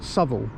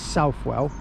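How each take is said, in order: First: The middle 'w' sound is left out. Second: The middle 'w' sound is pronounced clearly. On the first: This is how the name is actually said. The speaker calls it right. "It's actually called Southall" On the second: This is how the spelling makes it look. The speaker calls it wrong. "if you read it, it looks like it says Southwell"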